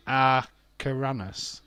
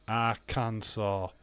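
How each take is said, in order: First: Arcaranus, read slowly letter by letter as written, not as Arkansas; spelling-out reading. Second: Arkansas said slowly as ar-kan-saw; correct pronunciation. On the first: Streamer sounding out the spelling for chat, slow. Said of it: "but that does not say Arkansas". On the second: Streamer finally hitting the right name for chat, slow. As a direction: land Arkansas the proper way, ending in saw. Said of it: "Yeah, that's it, Arkansas". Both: Shown as a demonstration.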